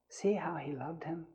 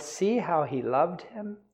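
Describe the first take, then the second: First: Whispery, much softer reading; hushed repeat. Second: Said in the usual way. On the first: Shown as a demonstration. Preacher repeats the verse to the congregation, hushed. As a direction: let the verse drop to a near whisper.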